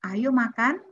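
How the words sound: Said as a friendly, inviting call. It is an invitation to eat. "berarti mengajak makan"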